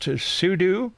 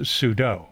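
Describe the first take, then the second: First: Sudo pronounced SOO-DOO. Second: Sudo pronounced SOO-DOH; sudo like judo. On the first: Explaining one camp's choice, sudo said soo-doo. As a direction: say sudo rhyming its end with "too". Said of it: "short for super user do". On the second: Explaining the other camp's choice, sudo said soo-doh. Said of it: "compare it to judo". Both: Shown as a demonstration.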